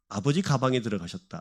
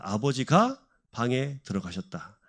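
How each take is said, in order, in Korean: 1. 끊어짐은 ga 앞에 오고, bang과 붙어 있습니다. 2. 끊어짐은 ga 뒤에 오고, bang과 떨어져 있습니다. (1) "가와 방을 붙이면 다른 의미가 되고" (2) "떼면 또 다른 의미가 되죠"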